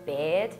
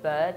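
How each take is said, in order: First: The vowel sounds like the vowel in 'beard'. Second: The vowel is the usual 'bird' vowel. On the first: "where I'm from, they will be like beard" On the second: "they don't say like bird"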